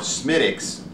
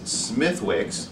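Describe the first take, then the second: First: The name is pronounced the Irish way, shortened. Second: The name is pronounced literally, as it is spelled.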